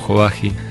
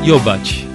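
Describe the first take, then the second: First: The surname is pronounced the local Argentine way. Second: The surname is pronounced the original Hungarian way. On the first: This is how everyone locally knows the name. "acá todos me conocen como Jovagi" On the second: This is the technically correct original pronunciation. "así se pronuncia técnicamente, pero en Argentina es húngaro el apellido"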